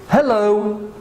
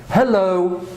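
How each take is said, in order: The two takes are said the same way.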